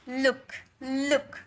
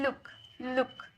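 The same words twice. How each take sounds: First: लुक with a long ऊ, drawn out; लुक said slowly with a long vowel; the mistaken long लुक; wrong look. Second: लुक quick with a short उ; लुक clipped, short vowel; the fast correct लुक; right look. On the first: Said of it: "लुक, लुक थोड़ी बोल रहे". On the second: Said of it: "जल्दी बोल रहे ना". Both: Shown as a demonstration.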